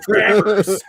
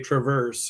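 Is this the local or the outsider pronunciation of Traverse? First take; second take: local; outsider. First: It uses the local pronunciation of the name. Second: It uses the outsider pronunciation of the name. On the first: The speaker is from the area. The speaker calls it right. "you freaking idiot, Traverse" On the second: The speaker is not from the area. The speaker calls it wrong. "if people aren't from around here, they say Traverse"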